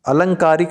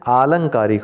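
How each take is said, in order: First: The first vowel is a short 'a'. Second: The first vowel is a long 'aa'. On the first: The speaker calls it wrong. "नहीं होता है" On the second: The speaker calls it right. "होता है"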